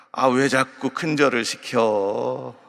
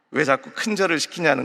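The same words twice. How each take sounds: First: Slow, lazy Chungcheong instructor drawl; Chungcheong dialect. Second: Said in the usual way. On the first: Retold or imitated. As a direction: tease the student slowly in Chungcheong dialect. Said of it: "이 충청도 강사는". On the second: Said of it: "거죠".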